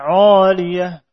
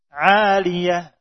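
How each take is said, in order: First: The long vowel is heavy and thick. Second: The long vowel is light and thin. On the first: The speaker calls it wrong. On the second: The speaker calls it right.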